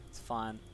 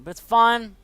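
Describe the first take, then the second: First: Much softer, dropping away; deflated under-the-breath echo; quiet resigned. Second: Higher and louder, forced "fine"; sarcastic loud reassurance; loud exasperated. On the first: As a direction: tell yourself it's fine, barely audible. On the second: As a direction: blurt it out in frustration. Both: Real, not acted. Frustrated after a loss.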